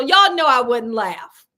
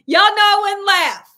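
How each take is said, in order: First: Said in the usual way. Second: Louder, higher insistence; emphatic. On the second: Real, not acted. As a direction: press it home with force. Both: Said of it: "repeats it insistently".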